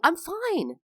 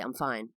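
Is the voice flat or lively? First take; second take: lively; flat. First: It is said lively, with lots of pitch movement. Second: It is said flat, with little pitch movement. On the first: It shows the speaker is happy. "because I'm not going, ... Or maybe that sounded fake" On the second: It may seem angry or like a lie. "I'll just say"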